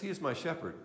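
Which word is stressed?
shepherd. The word my is not stressed.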